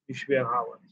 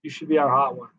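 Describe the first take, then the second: First: Echoed again, softer and trailing off; fading echo of other fans; softer repeat. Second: Mock fan urging, in the speaker's own voice; lightly voiced fan pitch; imitating a fan. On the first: Retold or imitated. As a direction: let the repeat fade like a distant chorus. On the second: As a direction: parrot what people keep telling you. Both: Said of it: "For every time somebody has said".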